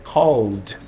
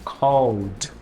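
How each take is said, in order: The two takes are said the same way.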